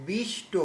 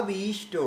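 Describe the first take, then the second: The two takes are said the same way.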